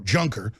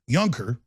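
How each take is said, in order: First: The name is read as spelled, English-style. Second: The name has a German pronunciation.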